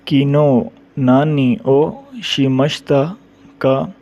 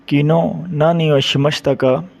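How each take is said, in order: First: किनो नानी ओ शिमश्ता का drawn out slowly; slow demo. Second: Said in the usual way. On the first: Shown as a demonstration. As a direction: lay out किनो नानी ओ शिमश्ता का word by word for learners. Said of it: "teacher models past question slowly". (किनो नानी ओ शिमश्ता का धीरे-धीरे) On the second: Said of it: "repeat at normal pace".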